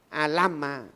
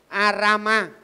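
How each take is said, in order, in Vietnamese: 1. Phụ âm ở giữa là âm L. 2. Phụ âm ở giữa là âm R. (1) "mượn cái bằng L họ phát âm" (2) "họ không có bằng gọi là R"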